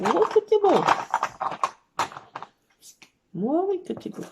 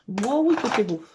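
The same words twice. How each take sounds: First: Put-on doting baby talk. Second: Said in the usual way. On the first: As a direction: gush over the cat, pitch up. Répète au chat, plus aigu et fort. (roucoulé aigu et fort au chat)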